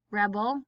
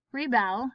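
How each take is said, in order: First: Rebel as REB-ul; short "reh" stressed in Rebel; stress on first syllable. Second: Rebel as ree-BELL, falling; stress on second syllable. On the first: Teacher reading word list aloud, stress on first syllable. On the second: Teacher reading word list aloud, stress on second syllable. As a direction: punch the bel in rebel. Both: Shown as a demonstration. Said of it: "both of the different pronunciations".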